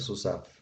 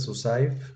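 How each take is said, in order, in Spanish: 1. La última sílaba tiene un sonido 'a' simple. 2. La última sílaba tiene un deslizamiento 'ai'. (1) "va a ser su saf" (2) "En lugar de su saif"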